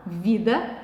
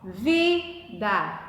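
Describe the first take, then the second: First: Said in the usual way. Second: Split into syllables. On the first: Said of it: "eu vou na última palavra". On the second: Shown as a demonstration. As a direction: separate "vida" into two syllables, lifting the stressed "vi". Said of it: "vejo a sílaba tônica". ("vida" separado em sílabas: vi-da, com "vi" tônico)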